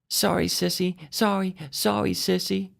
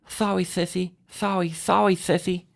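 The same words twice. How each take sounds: First: It is said plainly, without a lisp. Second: It is said with a child's lisp.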